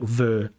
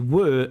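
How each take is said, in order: First: The word starts with a v sound. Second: The word starts with a w sound. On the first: The speaker calls it wrong. "it sounds like ver" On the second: The speaker calls it right. "When you say were"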